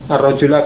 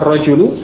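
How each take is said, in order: First: The word ends in an a vowel. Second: The word ends in a u vowel. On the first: The man is the one who was killed. "kalau dibaca fathah" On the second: The man is the one who did the killing. "kalau dibaca dhammah"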